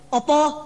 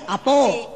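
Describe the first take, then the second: First: It is said with a Javanese accent. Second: It is said with a Padang accent. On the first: The open mouth would let a fly in. "Kalau Jawa bilang kan, opo" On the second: The open mouth would let a mosquito in. "Padang bilang apo"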